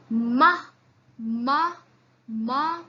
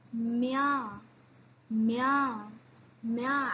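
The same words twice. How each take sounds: First: Ma with a firm hard m. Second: Mia with a soft palatal m. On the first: Teacher drills hard ma. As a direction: press out ma. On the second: Teacher drills soft mia. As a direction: glide softly into mia. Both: Shown as a demonstration. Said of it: "See the difference".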